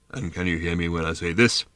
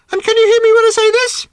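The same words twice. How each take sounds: First: Low, sepulchral bird voice; sepulchrally deep voice. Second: Loud, piercingly high bird voice; very high pitch. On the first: Bird testing a girl's hearing range, sepulchrally deep. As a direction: drop deep, as if from a tomb. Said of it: "in a sepulchrally deep voice". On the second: Bird testing a girl's hearing range, extremely high-pitched. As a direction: squeal it out far above your normal pitch. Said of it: "at a much higher pitch". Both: A narrator's reading.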